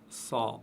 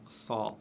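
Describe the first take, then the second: No difference in how they are said.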